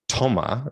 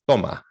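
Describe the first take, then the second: First: The first consonant is a strong, English-like T. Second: The first consonant is soft, almost like a D. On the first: The speaker calls it wrong. "the Spanish T is not toma" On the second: The speaker calls it right. "it's toma, which sounds pretty much like a D for most English speakers"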